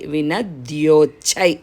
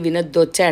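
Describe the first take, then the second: First: A clear y sound follows the d. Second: The d is doubled with no y sound. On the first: The speaker calls it right. "ఇది యావత్తు కూడా వినిపించాలి" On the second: The speaker calls it wrong. "వినద్దోచ్చై వినద్దోచ్చై అంటారు చాలామంది"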